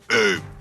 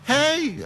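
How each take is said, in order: First: The greeting sounds stern and forceful. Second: The greeting sounds friendly and polite. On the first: The person at the door is someone you know. "a real, like, uh, you know" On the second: The person at the door is a stranger, like a tow truck driver. "you have like almost a pleasant"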